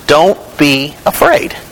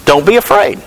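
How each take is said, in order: First: "Don't be afraid" spaced out word by word; slowly, pausing between "Don't", "be" and "afraid"; slow, deliberate emphasis. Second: Said in the usual way. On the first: Acted. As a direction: let each word of "Don't be afraid" stand alone. Repeats the scripture line for emphasis.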